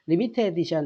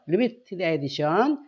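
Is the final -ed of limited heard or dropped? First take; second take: dropped; heard. First: The ending of limited is dropped, sounding like limit. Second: The ending of limited is fully pronounced as -ted.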